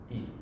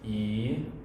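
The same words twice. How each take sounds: First: The vowel is cut short. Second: The vowel is held long. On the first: "short I" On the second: "long I with the macron"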